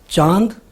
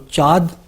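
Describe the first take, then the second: First: The long vowel is nasalized. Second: The long vowel is not nasalized.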